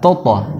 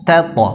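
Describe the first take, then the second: First: The first t is thick, with an o-like vowel. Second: The first t is thin, with an a vowel. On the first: The speaker calls it wrong. "yang benar bukan toto" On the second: The speaker calls it right. "tapi ta"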